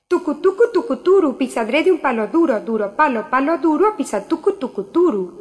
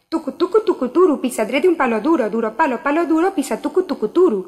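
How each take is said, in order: First: It is said at a normal speed. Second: It is said faster than before.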